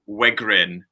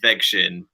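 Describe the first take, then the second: First: The surname is said with an anglicized pronunciation. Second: The surname is said with its original Polish pronunciation. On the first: "so I just say Wegrin" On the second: "the proper pronunciation is Vegshin"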